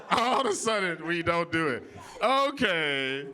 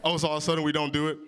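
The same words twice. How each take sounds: First: Slower, drawn-out sarcastic repeat; sarcastic disbelief. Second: Said in the usual way. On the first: Real, not acted. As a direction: stretch it out, pointedly unconvinced. Mock disbelief at audience's denial.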